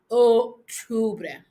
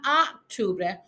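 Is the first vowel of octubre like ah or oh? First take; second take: oh; ah. First: The first vowel is a rounded oh. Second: The first vowel sounds like ah. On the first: The speaker calls it right. "round your lips, O, and push out the O" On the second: The speaker calls it wrong. "Not Octubre"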